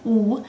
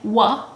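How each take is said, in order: First: The W sound is clipped with no added vowel. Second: The W sound has a vowel added after it. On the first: The speaker calls it right. "I'm clipping the W sound" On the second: The speaker calls it wrong. "I'm not saying wa"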